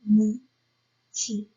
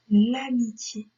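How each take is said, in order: First: "Amitié" slowly split as A, mi, tié; slow teacher's dictation of "Amitié"; syllable by syllable. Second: Said in the usual way. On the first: Shown as a demonstration. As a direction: dictate "Amitié" with a clear pause between syllables. Teacher breaks word into syllables.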